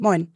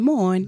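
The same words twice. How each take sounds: First: The word is said short and clipped. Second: The word is said longer and drawn out. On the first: This is how it is said in the city. "Aber sie sagen es vielleicht noch ein bisschen kürzer" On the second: This is how it is said in the countryside. "Und auf dem Land vielleicht ein bisschen Moin"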